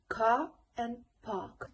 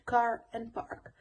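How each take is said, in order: First: The r sound after the vowel is dropped. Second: The r sound after the vowel is heard.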